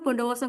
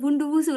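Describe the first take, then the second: First: The vowels are said as o sounds. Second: The vowels are said as u sounds. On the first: It keeps the name's original form. The speaker calls it right. "langsung aja Bondowoso nggak apa-apa" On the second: It is adapted to a language without that vowel. The speaker calls it wrong. "Kita nggak usah bilang Bunduwusu"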